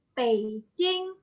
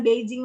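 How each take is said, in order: First: "Beijing" said as pei-ching; Mandarin pronunciation. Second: "Beijing" with voiced b and j; wrong reading. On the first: Teacher showing how it is read, Mandarin pronunciation. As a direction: give "Beijing" a p and a ch. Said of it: "Jadi dibacanya". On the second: Teacher quoting the reading to drop, spelling pronunciation. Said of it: "bukan Beijing lagi". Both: Shown as a demonstration.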